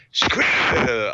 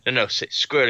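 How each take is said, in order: First: "Squirrel." garbled as skree by a lightly voiced puppet; puppet mangling a word. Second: A hint of Trump coaching; Trump impression. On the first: Kim Jong-un puppet fails again, "Squirrel." mangled in puppet voice. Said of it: "they try to get him to say squirrel". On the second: Trump coaching the puppet on squirrel, mild Trump voice. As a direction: coax the word, lightly as Trump. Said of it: "a guy doing an impression of Donald Trump".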